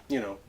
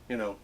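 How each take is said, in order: Both takes have the same delivery.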